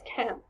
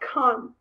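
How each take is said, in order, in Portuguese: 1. A vogal é aberta e plana, como 'a'. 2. A vogal é arredondada, mais próxima de um 'o'. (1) "mais perto de Londres ... é mais can. É mais americano" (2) "na parte é, aonde se situa Bristol ... é mais con"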